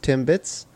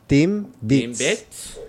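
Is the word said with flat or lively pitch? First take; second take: flat; lively. First: It is said with flat, even pitch. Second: It is said with lively, swooping pitch. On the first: "So Timbits is like the English" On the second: "in Tagalog, it's kind of like very like whoa"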